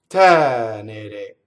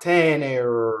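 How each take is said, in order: First: The R is a single quick tap. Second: The R is a smooth English-style R. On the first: The speaker calls it right. "just one flip of the R, one trill" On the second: The speaker calls it wrong. "It's not tenere, right? In English, an R is like an R"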